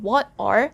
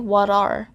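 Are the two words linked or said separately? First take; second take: separate; linked. First: The two words are said separately. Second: The T sound runs into the next word. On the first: "instead of saying what are" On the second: "the letter T sound for what can be carried to the letter A sound"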